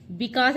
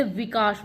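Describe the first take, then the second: First: विकास starting with a b, "bikas"; wrong initial consonant. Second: विकास starting with a v, "vikas"; correct initial consonant. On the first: Teacher showing what not to write, विकास as "bikas". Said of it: "विकास नहीं लिखते". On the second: Teacher giving the correct form, विकास as "vikas". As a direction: say विकास with v, not b. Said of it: "विकास आता है इसमें". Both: Shown as a demonstration.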